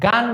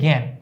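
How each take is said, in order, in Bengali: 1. শব্দটি সাধারণ স্বরে উচ্চারিত হয়, অনুনাসিক নয়। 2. শব্দটি অনুনাসিক স্বরে উচ্চারিত হয়। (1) "এটা কিন্তু আমরা গান বলছি না" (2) "চন্দ্রবিন্দুতে জ্ঞান"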